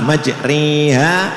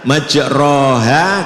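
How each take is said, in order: First: The vowel after r leans close to i. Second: The vowel after r is an open a. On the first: "kalau imalah majriha" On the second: "kalau kita baca majroha"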